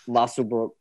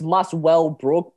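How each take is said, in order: First: The middle syllable well is dropped. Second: The middle syllable well is clearly pronounced. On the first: "we're too lazy to say that" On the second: "there's a well in there"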